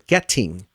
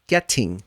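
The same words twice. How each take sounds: First: The middle T is a hard, forced T. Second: The same.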